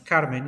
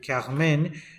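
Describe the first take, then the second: First: The name is said with a non-French pronunciation. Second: The name is said with a French pronunciation. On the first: The speaker calls it wrong. "that I am pronouncing, pronouncing as Carmen" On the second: The speaker calls it right. "in fact should be Carmen because it is in French"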